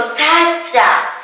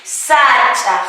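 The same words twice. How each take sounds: First: Said in the usual way. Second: "Sacha" ending in a throaty Q; final Q sounded. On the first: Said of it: "Termina en consonante o vocal". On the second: Shown as a demonstration. Teacher shows the genitive form, "Sacha" with final Q sounded. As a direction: close "Sacha" with a back-of-throat Q. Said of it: "La Q".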